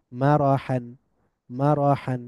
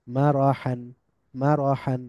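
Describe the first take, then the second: No difference in how they are said.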